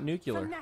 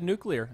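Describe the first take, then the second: First: The middle sounds like 'cue-lar'. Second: The middle sounds like 'clear'. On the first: This is the form the other person avoided. The speaker calls it wrong. "and not nuclear" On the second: This is the form the other person used. The speaker calls it right. "I'm glad you said nuclear"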